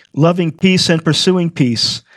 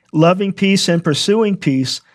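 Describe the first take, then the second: The two takes are said the same way.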